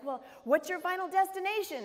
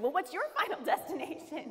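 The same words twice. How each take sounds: First: Cheery question. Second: Laughing as she turns his question back on him; laughing echo. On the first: Seatmate's cheerful probing question. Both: Retold or imitated.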